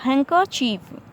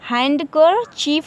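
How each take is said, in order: First: The d sound is left silent. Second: The d sound is pronounced. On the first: "इसमें डी जो है silent रहेगा" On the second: "हैंडकर चीफ लिखा हुआ"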